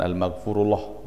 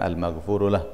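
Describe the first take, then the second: First: It ends in a heavy, doubled 'llah'. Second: It ends in a short, light 'lah'. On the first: The ending sounds like the word for God. The speaker calls it wrong. "Bukan al-maghfurullah ... dianggap lafzul jalalah" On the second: It means 'the one who is forgiven'. The speaker calls it right. "Kalau mau dimatikan al-maghfurulah"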